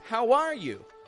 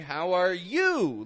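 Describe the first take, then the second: First: The word are is stressed with a rise. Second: The word you is stressed with a rise. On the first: The speaker is asking first. "Typically raises the tone of voice on are" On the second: The speaker is returning the question. "Enough about me"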